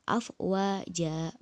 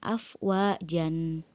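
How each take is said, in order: First: The word ends on a long a vowel. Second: The word ends with an n sound. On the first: The speaker calls it right. "dibaca panjang dua harokat" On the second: The speaker calls it wrong.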